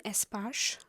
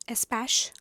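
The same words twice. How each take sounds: First: Espash said as "ess-PAHSH", open back vowel; long AH in Espash. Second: Espash said as "ess-PASH", front A as in "cash"; short A in Espash. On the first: Reader attempting an author's surname, Espash with an AH. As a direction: say Espash to rhyme with "posh". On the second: Reader unsure of an author's name, retrying Espash with short A. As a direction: try Espash rhyming with "cash", as a second guess. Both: Real, not acted. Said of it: "don't know how to pronounce her name".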